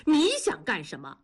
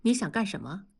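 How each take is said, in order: First: Higher-pitched angry retort; heated challenge, hitting the first word. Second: Cool, restrained question; understated icy challenge; cold. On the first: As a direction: fire the question back in anger. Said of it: "怒道". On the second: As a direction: ask it coldly, without raising the voice. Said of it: "冷冷地问". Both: A narrator's reading.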